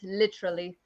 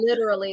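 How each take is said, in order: First: It is said in a British accent. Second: It is said in an American accent. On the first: "I love how the British say it literally" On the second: "not literally"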